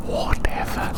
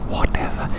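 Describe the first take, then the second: No difference in how they are said.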